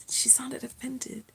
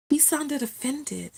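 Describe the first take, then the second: First: Whispered aside, slow; stage whisper. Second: Said in the usual way. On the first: Shown as a demonstration. To viewers about the offended neighbor, whispered. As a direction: breathe it out as a secret.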